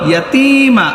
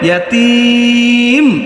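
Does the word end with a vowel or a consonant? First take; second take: vowel; consonant. First: The word ends on a final vowel. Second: The word ends on a final consonant. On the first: The reading continues without stopping. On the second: The reading stops on this word.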